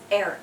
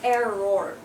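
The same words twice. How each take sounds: First: The final vowel is barely pronounced. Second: The final vowel is pronounced fully. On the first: The speaker calls it right. "we don't really say the o" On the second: The speaker calls it wrong. "it's not even error"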